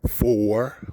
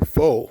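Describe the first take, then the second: First: The word ends with a clear r sound. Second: The word ends without r, sounding like foe. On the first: "we don't say four" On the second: "we say four"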